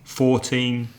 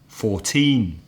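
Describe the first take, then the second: First: The stress is on the first syllable. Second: The stress is on the second syllable. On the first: The number is said while counting. "the stress has changed to the first syllable" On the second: The number is said on its own. "has the stress on the second syllable"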